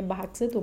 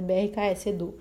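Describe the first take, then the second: First: The name is said as one word, Barax. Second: The name is said as separate letters. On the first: The speaker calls it wrong. "Pra mim é Barax Edu" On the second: The speaker calls it right. "mas é BRKS Edu"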